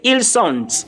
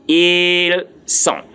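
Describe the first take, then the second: First: Ils sont with the final consonants wrongly voiced; sont wrongly, ending sounded. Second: Ils sont, final T left off; sont with silent T. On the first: Teacher shows learners what not to say, final consonants of sont sounded. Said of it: "Please, I didn't say ils sont". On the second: Teacher gives learners French for they are, sont with silent T. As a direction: drop the T at the end of sont. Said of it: "The T there is silence". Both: Shown as a demonstration.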